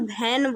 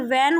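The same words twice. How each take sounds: First: The word begins with a 'bh' sound. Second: The word begins with a 'v' sound. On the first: The speaker calls it wrong. "लेकिन बच्चे क्या बोलते हैं, वैन बोलते हैं" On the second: The speaker calls it right. "ये वैन होता है"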